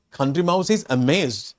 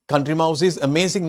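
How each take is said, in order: First: Amazed stressed in the correction; corrected take. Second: Said in the usual way. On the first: Shown as a demonstration. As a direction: lean on amazed. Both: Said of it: "No, that's wrong".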